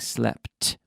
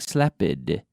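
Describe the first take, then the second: First: The word ends sharply with a plain T sound. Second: The ending has an extra vowel before the T. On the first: The speaker calls it right. "we're saying slept with a T" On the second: The speaker calls it wrong. "we're not we're not saying slepid"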